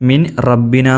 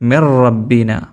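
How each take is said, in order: First: The n is pronounced separately before the r. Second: The n merges into a doubled r sound. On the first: The speaker calls it wrong. "മിൻ റബ്ബിന എന്ന് ഓതാനും പാടില്ല" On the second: The speaker calls it right. "എവിടെ ഓതേണ്ടത് എങ്ങനെയാണ്? മിർ റബ്ബിന"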